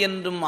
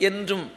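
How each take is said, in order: Both takes have the same delivery.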